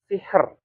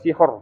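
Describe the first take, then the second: First: The r is thin, with a lighter vowel. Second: The r is thick, with a darker vowel. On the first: The speaker calls it right. "tipis karena harokatnya adalah kasroh" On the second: The speaker calls it wrong. "bukan sihor"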